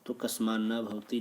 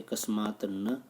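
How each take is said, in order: First: कस्मान् न with the त् turned to न्, run together; कस्मान् न भवति, the joined result after the rule; joined form. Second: कस्मात् न said slowly, each word apart, final त् clear; कस्मात् न, slow and split like a teacher showing the parts; separate words. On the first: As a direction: blend into कस्मान् न भवति smoothly. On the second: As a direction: spell out कस्मात् then न, unjoined. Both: Shown as a demonstration. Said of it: "ऐसा बनता है".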